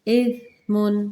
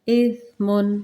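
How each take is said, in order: Both takes have the same delivery.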